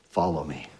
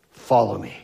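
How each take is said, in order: First: Low, hushed invitation; soft call. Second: Said in the usual way. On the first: Acted. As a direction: call him softly, almost under the breath. Jesus speaks gently to Peter.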